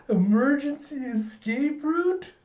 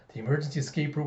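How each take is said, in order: First: Put-on very high, slow, awestruck child voice; Anya. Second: Said in the usual way. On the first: Child discovers papa's secret exit, awestruck. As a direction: marvel slowly in a squeaky kid voice. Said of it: "And Anya's thinking". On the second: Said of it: "he thinks".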